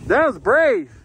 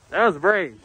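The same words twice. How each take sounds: First: Loud cheer, pitched up; excited praise. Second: Said in the usual way. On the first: Real, not acted. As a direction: call it out proudly. Cheering a friend's run.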